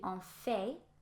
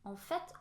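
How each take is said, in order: First: The final t of the word is silent. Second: The final t of the word is sounded. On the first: The speaker calls it wrong. "you think it should be en fait" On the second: The speaker calls it right. "on prononce en fait"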